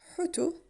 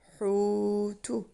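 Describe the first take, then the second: First: The first vowel is short and quick. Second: The first vowel is stretched long. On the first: It has no meaning. The speaker calls it wrong. "this has no meaning... This is quicker" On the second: It means fish or whale. The speaker calls it right. "You read it as hutu"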